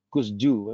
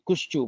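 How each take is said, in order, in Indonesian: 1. Konsonan tengah berbunyi 's' biasa. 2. Konsonan tengah berbunyi 'sh'. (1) "kalau nggak ada jenggotnya semua, Kusju bacanya" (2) "Ali Kushju bacanya begitu. Sin dengan jenggot itu bacanya seperti shin"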